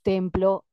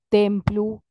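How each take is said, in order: First: The final vowel sounds like o. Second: The final vowel sounds like u. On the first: The final vowels only roughly match for the rhyme. "Y te digo Venus, templo" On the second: The final vowels would match exactly for the rhyme. "tendría que decir Venus, templu"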